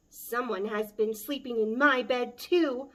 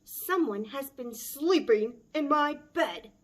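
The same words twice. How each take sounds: First: A loud Mama Bear cry. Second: Loud, higher big bear bellow; bellowing Papa Bear. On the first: Mama Bear finds her bed slept in, loud cry. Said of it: "Mama Bear cried". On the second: Papa Bear finds his bed slept in, loud bellow. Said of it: "Papa Bear bellowed". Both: Acted.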